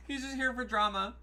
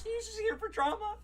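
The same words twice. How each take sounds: First: Said in the usual way. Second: Much higher, squeaky teasing; squeaky mock voice. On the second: Shown as a demonstration. Repeating the friend's remark, squeaky mock voice. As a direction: squeak it like a gleeful gossip.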